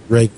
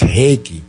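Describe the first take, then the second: First: It begins with an English R sound. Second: It begins with an H sound. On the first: This is the English pronunciation. "how do you say it in English? Reiki, right?" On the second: This is how it is said locally in Brazil. "here it's Heiki"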